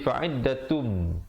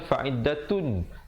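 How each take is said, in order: First: The word ends with a held, nasal m sound. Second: The word ends with a plain n sound. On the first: The ending merges into the following m. "di sini jadi fa'iddatum dengan kadar dengung dua harakat" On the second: This is the original form of the word.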